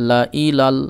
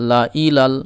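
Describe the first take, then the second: The two takes are said the same way.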